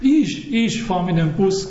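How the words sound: The stress falls on the word ich. I am the one taking the bus, not someone else. "Dann fährst nicht du mit dem Bus, sondern ich"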